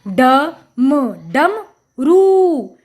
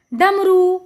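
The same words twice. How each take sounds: First: ड, म, डम, then a long रू, all separate; sounding out. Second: Said in the usual way. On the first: Shown as a demonstration. Teacher showing children the pronunciation, piece by piece. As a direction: build it in pieces with pauses, stretching रू. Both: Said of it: "हमने इसका उच्चारण किया".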